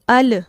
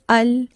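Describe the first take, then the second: First: The L sound is released with a bouncing echo. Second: The L sound is held still without bouncing. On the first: The speaker calls it wrong. "लाम को अल ऐसे पढ़ना गलत है" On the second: The speaker calls it right. "अब यहाँ पर हम कलकला नहीं करेंगे"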